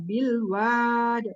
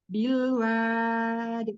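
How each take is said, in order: First: The vowel sound rises up toward the palate. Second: The vowel sound stays level and does not rise. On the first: The speaker calls it wrong. "tidak bilwad" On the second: The speaker calls it right. "suaranya ke lurus dan tidak naik ke atas"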